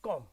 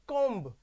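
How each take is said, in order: First: The word ends with an m sound. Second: The word ends with a b sound. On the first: The speaker calls it right. "ये बी का pronunciation नहीं आएगा, तो इसको हम कहेंगे कॉम" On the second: The speaker calls it wrong. "हम इसको ऐसे नहीं बोलेंगे कॉम्ब, ये गलत हो जाएगा"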